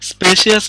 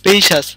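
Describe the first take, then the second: First: The word has three syllables, spe-shi-as. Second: The word has two syllables, spe-shas. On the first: The speaker calls it wrong. "স্পেশিয়াস না কিন্তু" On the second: The speaker calls it right. "সেই রকম স্পেশাস"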